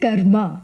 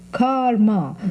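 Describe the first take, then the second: First: It is pronounced the non-American, original way. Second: It is pronounced the American way, like car.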